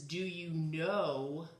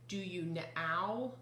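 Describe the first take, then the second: First: The vowel in 'know' is a long O. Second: The vowel in 'know' sounds like 'ow'. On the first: The speaker calls it right. "it's making a long O sound" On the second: The speaker calls it wrong. "That doesn't sound right"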